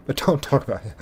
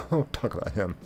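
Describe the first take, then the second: First: Said in the usual way. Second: "Don't talk about him" said through a soft laugh, much quieter. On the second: Real, not acted. Streamer repeating a warning to chat, laughing softly. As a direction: chuckle the words out softly.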